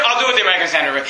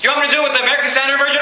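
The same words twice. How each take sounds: First: Very fast, lower falling reply; matter-of-fact answer. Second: Very fast rattled-off question; rapid challenge question. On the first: Preacher accepting his own challenge, quick matter-of-fact reply. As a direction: rattle the answer back, pitched down. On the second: Preacher offering another Bible version to doubters, rapid challenge. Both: Acted.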